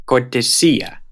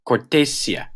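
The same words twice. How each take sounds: First: Cortesía said cor-te-SÍ-a; acute-marked stress. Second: Cortesía wrongly said cor-TE-sia; misplaced stress. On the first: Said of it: "Here are some examples". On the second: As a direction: stress the second syllable of cortesía. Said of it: "If they didn't have the acute". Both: Shown as a demonstration.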